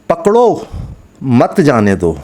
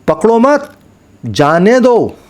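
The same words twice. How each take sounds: First: The pause comes right after 'pakdo'. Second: The pause comes right after 'mat'.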